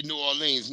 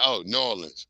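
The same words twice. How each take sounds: First: "New Orleans" squeezed into two syllables, Naw-lins; local pronunciation. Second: "New Orleans" spelled out in full, Or-lee-uns with a clear r; careful outsider "New Orleans"; outsider pronunciation. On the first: Host telling a chat friend how locals say "New Orleans", run together. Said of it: "I'm supposed to say New Orleans". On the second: Host correcting himself to the outsider's "New Orleans", sounded in full. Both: Shown as a demonstration.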